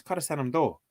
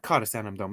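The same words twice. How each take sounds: First: "Cad a Sanam do" ending on the vowel; corrected pronunciation. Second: "Cad a Sanam dom" ending on a sounded m; rejected pronunciation. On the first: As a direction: say "do" open, with no final m. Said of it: "it's Cad a Sanam do". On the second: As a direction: say "dom" with a closing m. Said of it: "It's not Cad a Sanam dom". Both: Shown as a demonstration.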